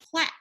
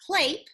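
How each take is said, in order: First: The vowel is a short A sound. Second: The vowel is a long A sound. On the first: The speaker calls it right. "it's a short A" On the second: The speaker calls it wrong. "if I said clape"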